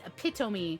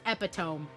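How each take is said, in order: First: The word has four syllables, ending in 'me'. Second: The word has three syllables, ending in 'tome'. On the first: The speaker calls it right. "It is epitome" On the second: The speaker calls it wrong. "not epitome"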